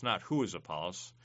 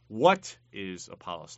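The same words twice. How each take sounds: First: Not who is Apollos, with "who" lifted on a rise; stress on who. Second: What is Apollos? with the weight on "What", louder, falling at the end; stress on what. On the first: Teacher contrasting the wrong question, stressing "who" with a rise. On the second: Teacher asking the class what Apollos is, stressing "What" over "who". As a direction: lean on "What", not the name. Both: Shown as a demonstration.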